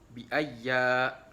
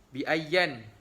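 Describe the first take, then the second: First: The word ends on a vowel, without n. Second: The word ends with an n sound. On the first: "waqaf dengan hazaf nun" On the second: "Kalau imam lain"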